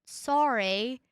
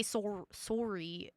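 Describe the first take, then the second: First: Mock-American "sorry" with an open "ah": SAH-ree; American "sorry" attempt. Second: Canadian "sorry" with a rounded "or": SOR-ee. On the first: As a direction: try "sorry" in an American accent, rising at the end. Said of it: "how do you Americans say it?". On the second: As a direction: say "sorry" softly with a Canadian "or" vowel. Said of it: "I know we say". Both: Shown as a demonstration.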